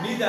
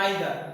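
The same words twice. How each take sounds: First: "neither" drawn out with a long ee first; first syllable of "neither" like "knee"; NEE-ther pronunciation. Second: "neither" drawn out with an eye sound first; first syllable of "neither" like "nigh"; NIGH-ther pronunciation. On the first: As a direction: say "neither" slowly as NEE-dar. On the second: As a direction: say "neither" slowly as NIGH-dar. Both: Shown as a demonstration. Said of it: "দুটো রকম উচ্চারণ আছে".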